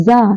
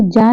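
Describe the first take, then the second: First: जा said as a buzzing "za"; dotted जा, pronounced za; z sound. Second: Said in the usual way. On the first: Shown as a demonstration. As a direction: say जा with z instead of j. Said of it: "ये भी बन गया है जा". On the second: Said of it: "अब ये जा नहीं रहा".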